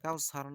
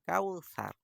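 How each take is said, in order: First: The s sound is heavy and thick. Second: The s sound is light and thin. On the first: The speaker calls it wrong. "আসলে কাউসার না" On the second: The speaker calls it right. "এই সাটাকে পাতলা করে বলতে হবে"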